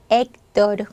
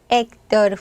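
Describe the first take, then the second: The two takes are said the same way.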